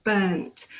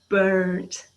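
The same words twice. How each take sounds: First: "Burnt" with a silent R; British pronunciation. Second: "burnt" with the R sounded; drawn-out "burrnt", American style. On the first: Teacher shows learners the English way, R-less "Burnt". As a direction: say "Burnt" as "buhnt", no R sound. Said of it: "Burnt in England". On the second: British teacher imitates Americans, slow "burnt" with a strong R. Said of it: "the er sound is pronounced". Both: Shown as a demonstration.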